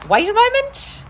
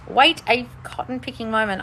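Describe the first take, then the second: First: High, loud wait a moment; sudden call out. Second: Said in the usual way. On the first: Real, not acted. Host calls out, high and loud. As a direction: call out to stop the stream. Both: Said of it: "I'm trying not to yell".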